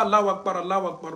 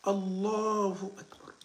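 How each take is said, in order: First: "Allahu Akbar" rushed as "Allaw Akbar"; wrong pronunciation demo. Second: "Allahu Akbar" slow with the "hu" fully said; correct pronunciation demo. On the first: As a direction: clip the "hu" off, the faulty way. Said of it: "Non, non, non, s'il te plaît". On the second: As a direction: say "Allahu Akbar" slowly and carefully. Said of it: "k'a fɔ ni gɛlɛya ye". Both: Shown as a demonstration.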